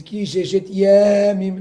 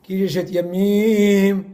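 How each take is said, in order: First: Yamim with the first syllable stressed, loud and high; wrong-accent demo, lean on the YA of Yamim; early stress on Yamim. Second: Yamim with the last syllable stressed and held, loud; slow chanted demo, stretch the MIM of Yamim; final stress on Yamim. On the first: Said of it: "mais les El comme". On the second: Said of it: "il faut pas dire comme ça". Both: Shown as a demonstration.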